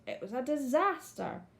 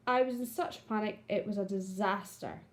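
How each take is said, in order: First: A touch of dismay on disaster, lightly exclaimed; mild exclamation. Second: Said as an exclamation; exclaiming. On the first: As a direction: exclaim it, but only slightly. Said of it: "the person is exclaiming how bad". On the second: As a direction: read it with alarm. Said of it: "the person is exclaiming". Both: Shown as a demonstration.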